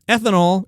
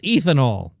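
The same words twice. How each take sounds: First: It begins like 'beth' without the b. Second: It does not begin like 'beth' without b. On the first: The speaker calls it right. "ethanol is like bethanol without the B" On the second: The speaker calls it wrong. "not ethanol"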